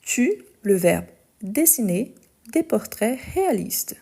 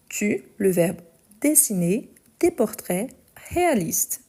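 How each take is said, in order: Both takes have the same delivery.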